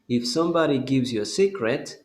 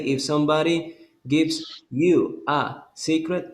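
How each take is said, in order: First: It is said quickly and smoothly without breaks. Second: It is said slowly with breaks between words. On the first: The speaker calls it right. "Repeat it with the same fluency" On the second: The speaker calls it wrong. "Don't say"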